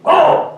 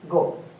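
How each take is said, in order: First: It is shouted loudly and angrily. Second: It is said calmly, as gentle permission. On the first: Get out. "your wife is shouting" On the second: You are allowed to leave. "Here go means permission"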